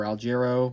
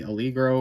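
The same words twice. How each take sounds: First: Second reading of the name, "Algero" with j sound; alternative pronunciation. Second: "Allegro" said with a hard g; first reading of the name, "Allegro" with hard g; alternative pronunciation. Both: Shown as a demonstration. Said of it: "whichever way you wanna pronounce that".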